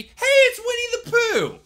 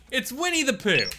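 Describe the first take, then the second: First: High, loud, slow thrilled cry; excited shout. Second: Said in the usual way. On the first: Acted. Playing the game character, spotting Winnie the Pooh, thrilled shout. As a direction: call out the name like a delighted kid.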